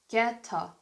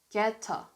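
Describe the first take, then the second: No difference in how they are said.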